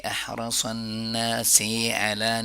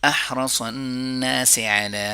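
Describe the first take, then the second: First: The s sound is drawn out long. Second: The s sound is kept short. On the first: The speaker calls it wrong. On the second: The speaker calls it right.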